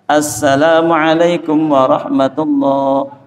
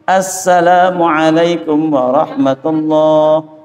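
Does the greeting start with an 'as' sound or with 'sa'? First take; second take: as; as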